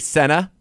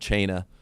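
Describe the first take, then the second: First: The name begins with an s sound. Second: The name begins with a ch sound. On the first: A broadcaster's careless mispronunciation is being copied. "what did they say? Senna" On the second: A wrestler's deliberate on-air mispronunciation is being copied. "Do you say Chena? Yeah, ... I did that intentionally"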